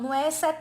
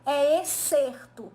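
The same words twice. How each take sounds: First: "exceto" said as the wrong word, no r before the t; the teacher voices the word students wrongly hear, "exceto" with a plain -ce- sound. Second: Slow, careful "excerto" with a clear r before the t, "ex-cer-to"; correct word excerto. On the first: Teacher warning students, saying the mistaken "exceto" first, pronunciation contrast. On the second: Teacher correcting students, slowly stressing "excerto" with its r. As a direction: stretch "excerto" out so the r in -cer- is heard. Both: Shown as a demonstration.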